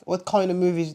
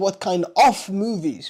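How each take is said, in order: First: The word 'of' is reduced, sounding like 'kinda'. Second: The word 'of' is fully and clearly pronounced. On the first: The speaker calls it right. "So the of is reduced" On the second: The speaker calls it wrong. "We're not saying what kind of movies"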